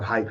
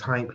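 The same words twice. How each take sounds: First: No m sound comes before the p. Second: An m sound comes before the p. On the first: It means excited or geeked up. The speaker calls it wrong. "not Hype. He's not geeked up" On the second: It is the person's name. The speaker calls it right. "That's H Y M P E"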